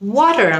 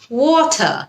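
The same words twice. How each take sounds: First: It is said in an American accent. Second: It is said in a British accent.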